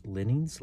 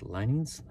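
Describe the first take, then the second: First: "Linings" misread as LIN-ings, with a short i; unsure short-i reading. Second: "Linings" as LINE-ings, with a long i; questioning long-i reading. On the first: Reader puzzling over a word, short-i "Linings". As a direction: question "Linings" with first syllable like "lin". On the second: Reader trying the word another way, long-i "Linings". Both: Real, not acted. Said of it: "Reading's not my forte".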